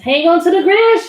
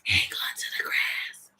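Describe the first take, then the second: First: It is spoken in a normal voice. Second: It is spoken in a whisper.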